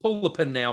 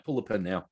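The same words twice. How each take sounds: First: Said in the usual way. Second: Muttered repeat, lower and softer; low quiet repeat. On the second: Real, not acted. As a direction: lower and softer, under the breath. Repeating his demand, muttered lower.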